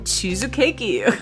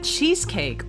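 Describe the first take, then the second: First: It is said with a Japanese pronunciation. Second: It is said with an English pronunciation.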